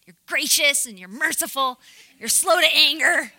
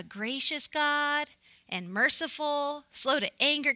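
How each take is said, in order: First: Loud, hammed-up indignant Jonah; mock angry. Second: Said in the usual way. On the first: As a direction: throw it at God like an accusation, loudly. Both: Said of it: "Can you imagine him saying this angry?".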